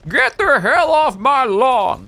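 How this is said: It is said in a put-on grumpy voice.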